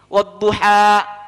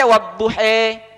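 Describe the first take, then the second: First: The word ends with an 'a' vowel. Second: The word ends with an 'e' vowel. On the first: "Yang satunya bisa mengucapkan kalimat begini" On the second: "nggak bisa mengucapkan a, bisanya e. Jadinya dia baca"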